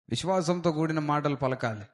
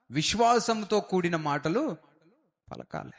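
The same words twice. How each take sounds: First: Said in the usual way. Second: విశ్వాసంతో stretched out slowly with weight on it; slow emphatic teaching. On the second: Shown as a demonstration. Preacher teaching the congregation which words to speak, slow emphatic stress. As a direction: lean on విశ్వాసంతో, then let పలకాలి fall away. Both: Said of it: "ఎలాంటి మాటలు పలకాలో తెలుసా?".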